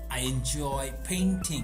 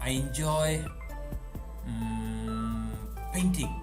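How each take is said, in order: First: It is said smoothly without any hesitation. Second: It has a hesitating filler before the last word. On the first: The speaker calls it right. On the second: The speaker calls it wrong.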